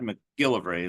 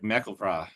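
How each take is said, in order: First: The stress is on the middle syllable. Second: The stress is on the last syllable. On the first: This is how people say it today. "like we do, or I do at least. Uh, more the middle symbol uh, syllable" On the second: This is how elderly people said it long ago. "the last syllable is the is the emphasis"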